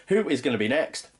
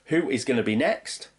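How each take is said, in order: Both takes have the same delivery.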